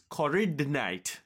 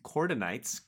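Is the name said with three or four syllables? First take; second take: four; three. First: The name is said with four syllables. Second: The name is said with three syllables. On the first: The speaker calls it right. "It's Corridonite" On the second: The speaker calls it wrong. "I've been pronouncing this wrong this whole time"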